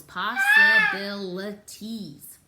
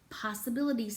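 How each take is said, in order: First: Possibilities drawn out slowly and loudly, one syllable at a time. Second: Said in the usual way. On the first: Shown as a demonstration. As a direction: sound out every syllable of Possibilities, slow and loud. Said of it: "It has a lot of syllables". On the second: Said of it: "say that".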